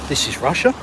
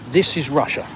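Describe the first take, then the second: First: It ends rising, like a question. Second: It ends falling, like a statement.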